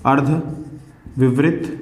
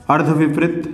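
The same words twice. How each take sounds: First: अर्धविवृत drawn out very slowly, syllable by syllable; stretched-out teacher dictation. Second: Said in the usual way. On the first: Shown as a demonstration. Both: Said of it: "दूसरा है".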